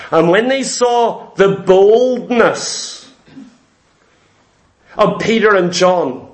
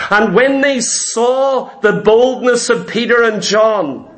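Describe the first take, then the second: First: Slow, deliberate reading from Acts with pauses; slow scripture reading. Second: Said in the usual way. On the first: Shown as a demonstration. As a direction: read it slowly, each word set apart. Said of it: "listen to what it says here". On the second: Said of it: "verse read again".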